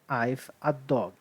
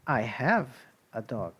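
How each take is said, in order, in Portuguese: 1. A palavra have é contraída para o som 've. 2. A palavra have é falada por inteiro. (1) "Você não pode falar assim para mim" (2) "você tem que falar I have a dog"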